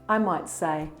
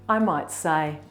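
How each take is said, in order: The two takes are said the same way.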